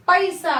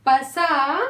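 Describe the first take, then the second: First: पैसा with a clear "pai" start; correct ai vowel. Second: पसा with a short "pa", no ai; wrong vowel. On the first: Teacher correcting पसा to पैसा for children. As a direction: stress the ai in पैसा. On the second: Teacher showing children the meaningless पसा. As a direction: say पसा flatly as pasa. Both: Shown as a demonstration. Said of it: "meaningless है".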